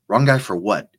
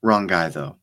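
First: Louder, incredulous "Wrong guy for what?"; Harry demanding why she hit the wrong guy, incredulous; disbelieving echo. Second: Said in the usual way. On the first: A narrator's reading. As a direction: throw her words back in disbelief. Harry echoes her words in disbelief.

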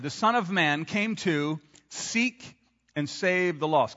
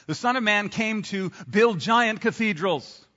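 First: Slow, deliberate, weight on "save"; the true verse, said slowly and clearly; slow emphatic quote. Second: Giant stressed in a slow mock quote; a slow, knowing wrong quote; wrong version, mock quote. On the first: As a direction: read it slowly, each word weighed. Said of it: "Here's what he actually said". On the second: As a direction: read "giant cathedrals" as if scripture, slowly. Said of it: "I don't think he said that". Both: Shown as a demonstration.

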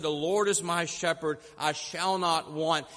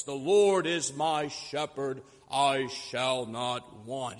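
First: Simple, unpolished recital in a near-everyday voice; heartfelt old preacher. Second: Slow, low recital of scripture; deep captivating orator. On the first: Old preacher quoting the Psalm at the podium, simple and heartfelt. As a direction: say it plainly from the heart, no oratory. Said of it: "he spoke from his heart". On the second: Orator reciting the Psalm to an audience, deep captivating voice. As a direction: recite like a great orator, drawing out each word. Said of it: "began in his deep, captivating voice". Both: Acted.

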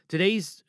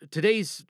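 Both takes have the same delivery.

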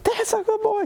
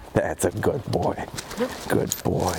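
First: High excited praise. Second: Low calm praise. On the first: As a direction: gush over the dog like he won a prize. Celebrating dog's success. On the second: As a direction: settle the dog with a low, slow voice. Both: Real, not acted.

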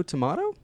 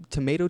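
First: "tomato" with a broad ah; "tomato" as to-MAH-to, rising in question; British-style tomato. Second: "tomato" with a long ay; "tomato" rhyming with potato; American tomato. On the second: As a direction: say "tomato" as to-MAY-to. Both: Shown as a demonstration. Offers two rival pronunciations.

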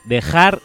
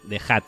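First: "dejar" loud, ending in an R; final R in dejar. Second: "dejad" ending in a D; final D in dejad. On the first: Host exposes listener's repeated mistake, loud "dejar" with final R. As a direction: punch out "dejar" with R as the last sound. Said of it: "otra vez mal". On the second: Host corrects the listener's imperative, "dejad" with final D. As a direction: say "dejad" with D as the last sound, not R. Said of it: "acaba en D". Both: Shown as a demonstration.

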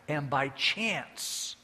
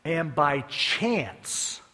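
First: "by" stressed, slow and deliberate; slow, pointed "by". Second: "by" drawn out and stressed, slow; slow, weighty "by chance". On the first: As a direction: linger on "by chance". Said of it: "just by luck". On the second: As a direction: lean hard on "by chance". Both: Shown as a demonstration.

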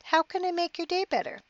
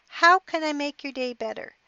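First: High mocking repeat, voice shooting up; wife mocking her husband's question, incredulous and high; incredulous echo. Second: Said in the usual way. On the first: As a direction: throw his words back in disbelief. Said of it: "She looked at him angrily".

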